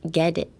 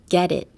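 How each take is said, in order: First: The T in the middle sounds like a D. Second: The same.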